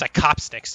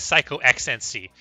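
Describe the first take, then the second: First: The ending is blended into one word. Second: The ending is said as separate letters. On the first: This is how many people say the name should go. "it's pronounced Psychopsnix" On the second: This is how the player himself likes it said. "he likes to pronounce it as Psycho X N C"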